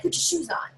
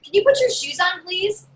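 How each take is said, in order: First: Flat firm order "Put your shoes on" with no please; tell, don't ask; firm command. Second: Higher, sweet asking tone on "Can you put your shoes on, please?"; pleading ask. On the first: Parent telling kids to put shoes on, firm command. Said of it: "you gotta be like". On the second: Parent politely asking kids for shoes, sweetly pleading. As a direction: ask nicely like a pushover. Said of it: "you ever ask them". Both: Shown as a demonstration.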